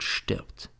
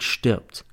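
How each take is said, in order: First: Breathy whispered last word; whispered threat. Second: Said in the usual way. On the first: A narrator's reading. Teacher reading the diary's threat, whispered. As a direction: let the death threat fade to a whisper. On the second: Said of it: "Jeder, der sein Kästchen anrührt".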